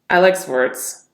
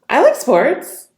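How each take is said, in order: First: The voice sounds disgusted and off-putting. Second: The voice sounds surprised and high-pitched. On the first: "Disgust. Off-putting tonality" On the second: "High-pitched. Surprised"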